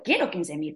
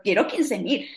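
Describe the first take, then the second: First: Quiero said firmly, leaning on the word; stress on quiero. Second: Said in the usual way. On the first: Retold or imitated. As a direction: hit "quiero" to correct yourself. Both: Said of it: "No necesito, quiero quince mil".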